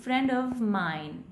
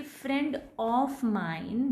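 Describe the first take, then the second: First: Friend of mine with of as "uv"; correct OF. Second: Friend of mine with of drawn out as "off"; wrong OF. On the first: Teacher showing what we would say, slow uv. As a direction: say of as uh plus v, slowly, in friend of mine. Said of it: "we would say". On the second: Teacher showing what we won't say, slow off. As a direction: say of as a long open off in friend of mine. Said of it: "we won't say". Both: Shown as a demonstration.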